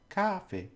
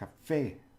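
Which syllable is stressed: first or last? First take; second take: first; last. First: The stress is on the first syllable. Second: The stress is on the last syllable. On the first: The speaker calls it wrong. "it's not cafe" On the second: The speaker calls it right. "it indicates that you have to make that that syllable the stressed one"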